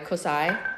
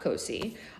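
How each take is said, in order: First: The name ends with an 'eye' sound. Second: The name ends with an 'ee' sound. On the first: This is the other place with the same spelling. "It's pronounced the long I" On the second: This is the name of the Italian sandwich shop. "it's like it's Italian"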